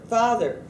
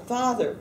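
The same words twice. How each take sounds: The two takes are said the same way.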